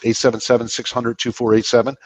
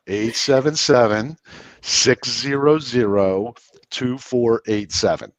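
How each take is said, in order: First: Quick Northern-paced phone number; fast talker. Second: Phone number at slow Southern speed; deliberately slow, spaced-out digits; slowed right down. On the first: Real, not acted. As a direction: rattle the digits off briskly. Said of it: "you talk faster than us". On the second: Shown as a demonstration. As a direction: draw out each digit, pausing between groups. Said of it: "take it from seventy-eight down to forty-five".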